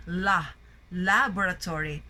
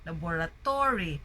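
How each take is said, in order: First: LA stressed at the front of laboratory; laboratory with a strong LA, weak tail; stress on first syllable. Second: Laboratory stressed late, on the TO; laboratory mis-stressed as labora-TO-ry. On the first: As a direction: punch the opening LA in laboratory. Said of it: "the stress is in the first syllable". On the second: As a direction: lean hard on TO in laboratory. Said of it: "they put the stress in the to". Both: Shown as a demonstration.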